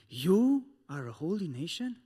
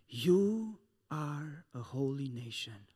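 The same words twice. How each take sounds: First: It is said as a mocking rhetorical question. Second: It is said as a firm declaration.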